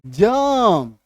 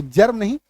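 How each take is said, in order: First: जर्म drawn out with the R dropped, like "juhm"; जर्म as a long vowel closing on M; actual pronunciation, silent R. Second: जर्म with the R clearly sounded; everyday pronunciation, full R. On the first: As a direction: let the R vanish in जर्म. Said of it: "ये होगा actual उच्चारण". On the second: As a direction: sound the R in जर्म, as the version to reject. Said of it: "तो जर्म नहीं". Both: Shown as a demonstration.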